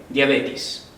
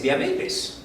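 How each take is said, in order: First: "diabetes" said as djabetis, ending in -tis; common wrong pronunciation. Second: "diabetes" said as dia-BE-tes, clearly in three syllables; correct pronunciation. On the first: Teacher imitates how people mispronounce diabetes, mockingly. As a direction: mimic the everyday mistake "diabetes" as "diabetis". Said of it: "la gente está tan acostumbrada que dice diabetes". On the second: Teacher models the correct word diabetes for students, carefully. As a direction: teach the right form "diabetes". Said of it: "La palabra adecuada es diabetes". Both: Shown as a demonstration.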